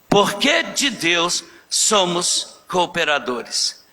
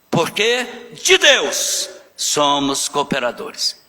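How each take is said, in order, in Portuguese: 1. As palavras 'de Deus' não recebem nenhuma ênfase especial. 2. As palavras 'de Deus' são fortemente enfatizadas.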